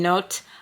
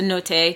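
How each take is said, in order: First: The name is said with an English-style pronunciation. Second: The name is said with an Italian-style pronunciation. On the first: The speaker calls it wrong. "I know I've been saying note" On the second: The speaker calls it right. "I'm guessing Italian, so note"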